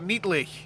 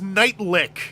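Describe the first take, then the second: First: The first syllable does not sound like 'night'. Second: The first syllable sounds like 'night'. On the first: The speaker calls it wrong. "I just said I'm here with Toy Guru Scott Niedlich" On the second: The speaker calls it right. "Oh no, it's Nightlick"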